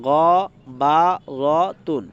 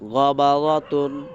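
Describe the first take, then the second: First: The syllables are said slowly, one by one. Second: The syllables are said quickly, run together. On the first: "একসাথে বলবো সবগুলো এখন" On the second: "এই উচ্চারণগুলো একটু দ্রুত করতে হবে"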